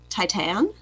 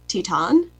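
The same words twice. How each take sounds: First: It is pronounced the plain English way. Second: It is pronounced the French way.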